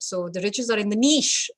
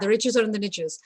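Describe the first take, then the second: First: It is said the British way, niche like neesh. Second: It is said the American way, niches rhyming riches.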